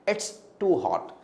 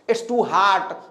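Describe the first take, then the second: First: The last word has a short rounded 'o' vowel. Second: The last word has a long open 'ah' vowel. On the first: The speaker calls it right. "No it's to हॉट" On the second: The speaker calls it wrong. "बहुत लोग कहते हैं it's to हार्ट"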